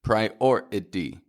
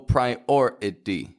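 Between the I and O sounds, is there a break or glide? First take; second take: break; break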